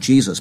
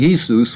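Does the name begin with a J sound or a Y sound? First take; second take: J sound; Y sound. First: The name begins with a J sound. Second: The name begins with a Y sound. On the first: "the English languages pronounce the J" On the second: "which is the silent J in the Germanic languages"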